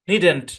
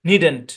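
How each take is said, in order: Both takes have the same delivery.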